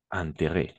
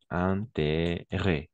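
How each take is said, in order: First: Said in the usual way. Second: "Intérêt" said very slowly, opening nasal un; slow model word. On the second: Shown as a demonstration. Teacher slowly modelling "Intérêt" for the student. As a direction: stretch out "Intérêt", nasal first syllable. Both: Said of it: "On va prononcer un".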